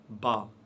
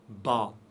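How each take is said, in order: The two takes are said the same way.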